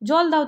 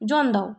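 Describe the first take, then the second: First: The first word ends with an l sound. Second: The first word ends with an n sound. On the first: The speaker calls it right. "জল দাও তারা বলতে পারে না" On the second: The speaker calls it wrong. "অনেকে জলকে জন বলে"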